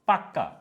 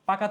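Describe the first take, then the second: First: The k sound in the middle is doubled. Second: The k sound in the middle is short.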